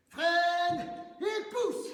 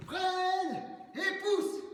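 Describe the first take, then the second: First: Sung, sing-song cue. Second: Shouted cue. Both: Shown as a demonstration.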